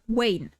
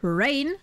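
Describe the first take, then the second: First: It begins with a w sound. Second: It begins with an r sound. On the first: "they'll basically turn the R into a W" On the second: "instead of ... rain"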